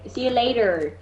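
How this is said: It is said with an American r.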